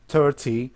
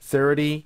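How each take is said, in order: First: The t is pronounced as a clear t sound. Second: The t sounds like a soft d, American style.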